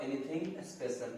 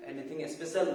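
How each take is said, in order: First: Stretched out very slowly; slow teaching repeat. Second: Said in the usual way. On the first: Shown as a demonstration. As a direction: drag each word for students to copy. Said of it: "teacher repeats phrase slowly". (बहुत धीमे, सिखाने के अंदाज़ में) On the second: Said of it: "teacher models phrase, then slow".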